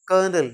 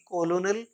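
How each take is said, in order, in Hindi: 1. यह दो अक्षरों में बोला जाता है, जैसे 'kernel'। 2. यह तीन अक्षरों में बोला जाता है, जैसे 'co-lo-nel'। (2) "ना कि कोलोनल या कुछ और"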